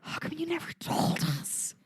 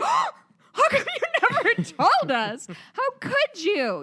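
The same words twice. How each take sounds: First: Whispered, higher "How come you never told us?"; whispered mock innocence; mock hushed guys. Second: Much higher, louder, slow and laughing; hammed-up gasping shock breaking into laughter; mock outraged men. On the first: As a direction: breathe it like a stunned clueless man. Guys answer women, mocking. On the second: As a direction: shriek it like a scandalised dude. Guys gasp at women's yearly plea.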